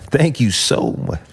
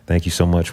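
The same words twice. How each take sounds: First: It is said excitedly, with high energy. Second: It is said calmly, with little energy.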